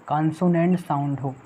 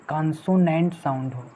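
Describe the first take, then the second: Both takes have the same delivery.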